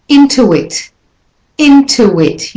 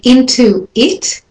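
First: "into it" joined with a w glide, "intuwit"; linked "into it". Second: Said in the usual way. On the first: Shown as a demonstration. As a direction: flow "into it" as one unit. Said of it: "it sounds more flowing". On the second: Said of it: "and linked".

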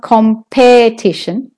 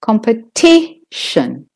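First: "competition" mis-stressed with a full PE; wrong stress on PE. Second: Slow "competition" with TI held; stress on TI. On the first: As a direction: put the weight on the second syllable, com-PE-tition. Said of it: "It's not". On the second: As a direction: stretch the third syllable, compe-TI-tion. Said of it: "It's not competition". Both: Shown as a demonstration.

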